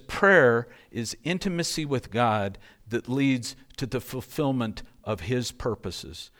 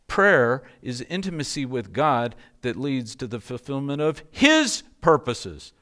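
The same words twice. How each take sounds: First: It is read plainly, without special emphasis. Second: It is read with added emphasis.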